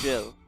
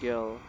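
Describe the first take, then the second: First: The name is said with the French pronunciation. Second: The name is said without the French pronunciation.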